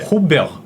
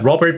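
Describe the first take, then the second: First: French-style, two syllables with a throaty r. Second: English-style, with the final t sounded. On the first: "불어로 읽으면 두 음절입니다" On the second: "영어 발음으로는"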